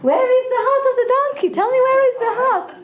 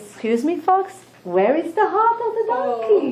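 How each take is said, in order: First: Much higher and faster, pressing hard; insistent lion. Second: High, pointed question with a laugh; the lion wants his missing heart, higher pitched; demanding lion. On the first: Lion presses the fox for the donkey's heart, high, fast and urgent. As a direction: fire the question again, urgent and shrill. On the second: Lion asks his fox servant about the heart, high and demanding. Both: Acted.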